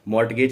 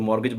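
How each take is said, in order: First: The t sound is clearly pronounced. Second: The t sound is left silent. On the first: The speaker calls it wrong. "मॉर्टगेज नहीं पढ़ना है इसको" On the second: The speaker calls it right. "इसमें भी हमारा टी silent होता है"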